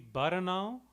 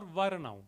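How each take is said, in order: First: The word begins with a 'b' sound. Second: The word begins with a 'v' sound. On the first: "B and V are often interchanged" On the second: "Both are fine"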